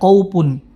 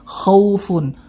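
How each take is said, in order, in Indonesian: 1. Ada bunyi q dan bunyi p. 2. Ada bunyi kh dan f yang berdesah. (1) "jangan sampai qaupun" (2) "huruf fa jelas sifat afufnya"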